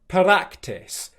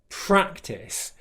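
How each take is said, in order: First: The R is tapped against the mouth roof. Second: The R is smooth, the tongue not touching. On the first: The speaker calls it wrong. "where their tongue touches the roof of their mouth for the R sound when it shouldn't" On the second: The speaker calls it right. "which is exactly how he should be saying it"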